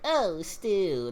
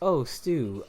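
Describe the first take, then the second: First: It is said in an exaggerated, put-on character voice. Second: It is said in a plain, ordinary speaking voice. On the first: "That's somebody putting on a voice" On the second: "It sounds like their normal voice"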